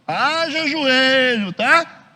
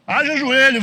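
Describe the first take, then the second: First: Slow, high, loud Haja joelho; drawn-out emphasis. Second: Said in the usual way. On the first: Shown as a demonstration. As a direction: stretch Haja joelho out for weight.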